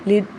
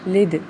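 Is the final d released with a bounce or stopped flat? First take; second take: flat; bounced. First: The final d stops flat without a bounce. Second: The final d is released with a bounce. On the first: The speaker calls it wrong. "लिद नहीं पढ़ना" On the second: The speaker calls it right. "दाल पे कलकला करेंगे"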